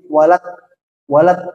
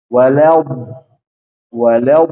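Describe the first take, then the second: First: The final consonant is cut short and hard. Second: The final consonant is drawn out along the tongue. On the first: The speaker calls it wrong. "ini kurang tepat" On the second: The speaker calls it right. "harus ada istitolah ini"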